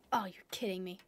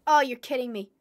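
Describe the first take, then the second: First: Muttered dismay. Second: Exasperated complaint. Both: Real, not acted.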